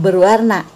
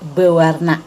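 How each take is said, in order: First: An R sound follows the first syllable be. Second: No R sound follows the first syllable be. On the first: The speaker calls it wrong. "bukan berwarna" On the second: The speaker calls it right. "tetapi bewarna"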